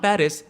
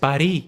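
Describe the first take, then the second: First: It is said the English way, ending in s. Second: It is said the French way, without final s. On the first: The speaker calls it wrong. "तुम्हारे मुंह से वहां पेरिस निकल गया" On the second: The speaker calls it right. "वहां के किसी local ने तुमको बोला"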